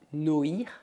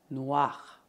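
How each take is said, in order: First: The vowel is said as separate o and i. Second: The vowel is said as wa. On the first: The speaker calls it wrong. "Não dizemos noir" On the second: The speaker calls it right. "as letras O mais I fazemos som wa"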